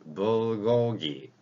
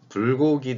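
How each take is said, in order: First: The first consonant is voiced, with throat vibration. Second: The first consonant is plain, without throat vibration. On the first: "목젖을 울리게 해줘라" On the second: "불고기 대신에"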